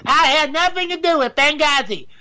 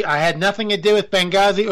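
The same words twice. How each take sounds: First: Higher, a put-on Hillary Clinton voice; retry the Hillary line in a higher, changed voice; Hillary Clinton impression. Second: Put-on a botched Hillary voice that lands in the wrong accent, barely off his own; a failed first try at the impression, close to his normal voice. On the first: Vlogger retries Hillary Clinton impression, higher put-on voice. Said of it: "I can't do Hillary Clinton". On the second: Vlogger fumbles a Hillary impression, wrong accent. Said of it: "Oop, wrong accent".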